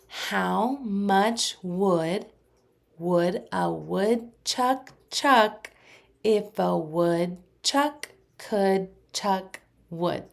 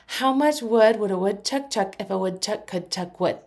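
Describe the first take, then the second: First: It is said fairly fast. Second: It is said as fast as possible. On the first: "a little faster" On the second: "as fast as you can?"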